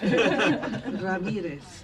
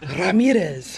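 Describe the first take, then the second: First: The name is said with a Spanish-style pronunciation. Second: The name is said with an English-style pronunciation. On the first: The speaker calls it right. "say it regular" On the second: The speaker calls it wrong.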